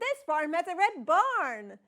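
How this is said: It is said as an excited exclamation.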